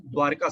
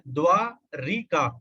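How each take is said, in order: First: द्वारका with no vowel after र, two clean syllables; correct form. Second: द्वारिका with an added i after र; wrong extra i sound. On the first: Teacher giving students the correct द्वारका, no i. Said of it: "द्वारका सही है". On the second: Teacher showing students the wrong द्वारिका with an i. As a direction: say द्वारिका the common wrong way, द्वा-रि-का. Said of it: "हम लोग बोलते हैं द्वारिका". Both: Shown as a demonstration.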